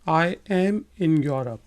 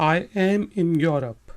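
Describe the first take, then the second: Both takes have the same delivery.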